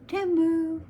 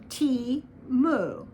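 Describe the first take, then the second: First: The first syllable has a short e, like 'tem'. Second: The first syllable is said like the letter T. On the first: "It's just a short E M sound, as it were, Tem" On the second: "Americans just weren't looking at the word T E M U as anything other than T-Moo"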